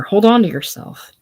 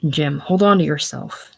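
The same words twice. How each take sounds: First: Higher and louder, sharp command; forceful command. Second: Said in the usual way. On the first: Acted. Jim shakes Eva and commands her, louder.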